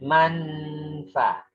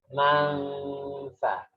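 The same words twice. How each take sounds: First: The n is pronounced clearly as a full consonant. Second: The n is hidden and blended into a nasal hum. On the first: The speaker calls it wrong. "Tidak manfa" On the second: The speaker calls it right. "Nunnya enggak jelas begitu"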